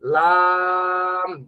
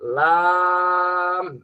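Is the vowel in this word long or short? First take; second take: long; long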